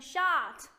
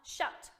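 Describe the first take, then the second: First: The vowel is drawn out long. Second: The vowel is short and clipped. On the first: The speaker calls it wrong. "你不能 shut 对吧？就不行啊" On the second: The speaker calls it right. "一定要把它发成短，就是 short and sweet"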